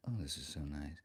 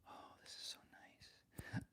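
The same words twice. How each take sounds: First: Soft, low-pitched voice close to the mic; playful hushed low tone; low murmur. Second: Very soft, slow whisper; playful hushed mic whisper. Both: Pretend. Playing close with the new microphone.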